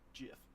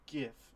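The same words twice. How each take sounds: First: It starts with a soft G sound. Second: It starts with a hard G sound. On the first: The speaker calls it wrong. "It's not GIF" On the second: The speaker calls it right. "Graphic starts with a G"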